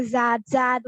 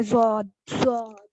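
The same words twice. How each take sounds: First: "ज़ाद" with an open aa; thin Z and open aa in "ज़ाद"; wrong, light pronunciation. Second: "ज़ौद" with a rounded, drawn-out aw; heavy Z and aw in "ज़ौद"; heavy letter. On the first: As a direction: say "ज़ाद" light, vowel unrounded. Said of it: "इसको ऐसे नहीं पढ़ेंगे". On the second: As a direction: say "ज़ौद" full and heavy, falling. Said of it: "heavy word है". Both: Shown as a demonstration.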